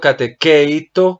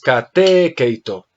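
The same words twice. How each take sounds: First: The stress is not on the epsilon syllable. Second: The stress is on the epsilon syllable. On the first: The speaker calls it wrong. "Me estás diciendo catequeito como si fuera catequesis" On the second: The speaker calls it right. "El acento debe ir sobre esta épsilon"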